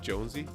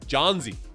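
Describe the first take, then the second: First: The first part sounds like Jones. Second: The first part sounds like John. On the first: The speaker calls it wrong. "forgive me for constantly mispronouncing your name" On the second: The speaker calls it right. "It's it's Johnsy"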